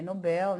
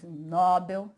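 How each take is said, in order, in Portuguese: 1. A tônica fica na última sílaba. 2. A tônica fica na primeira sílaba. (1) "que é Nobel, né, que já é oxítono" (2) "não tem mais Nobel"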